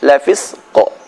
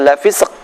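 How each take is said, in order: First: The final q ends with a bouncing echo. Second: The final q stops flat without an echo. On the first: The speaker calls it right. "tapi lafisq" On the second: The speaker calls it wrong. "bukan lafisq"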